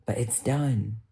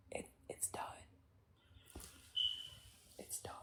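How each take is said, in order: First: Said in the usual way. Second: Barely audible, voiceless whisper; whispered finality. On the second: Real, not acted. Streamer closing the subject of their parents, whispering. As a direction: let it fade into a tiny whisper. Repeats it under the breath.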